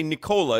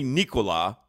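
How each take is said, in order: First: Nikola said "nih-KOH-la"; old pronunciation. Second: Nikola said "NEE-koo-la"; correct pronunciation. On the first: Host recalling how they used to say it, old pronunciation. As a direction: stress the long KOH in the middle of Nikola. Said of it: "we always used to say Nikola". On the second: Host correcting the name, correct pronunciation. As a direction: stress the first syllable of Nikola, short middle vowel. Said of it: "It's really Nikola". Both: Shown as a demonstration.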